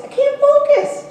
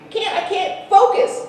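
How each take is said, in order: First: "focus" wailed much higher and louder, slowly; hammed-up frustrated plea, slow and high; mock whine. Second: Mock complaint. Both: Real, not acted. Complaining to chatty audience.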